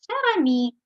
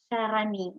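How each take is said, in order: First: Cher ami said high and loud; teacher modelling "Cher ami"; model French greeting. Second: Said in the usual way. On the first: Shown as a demonstration. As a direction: say "Cher ami" with a bright lift on "Cher". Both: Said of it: "вимовляється отак ідентично".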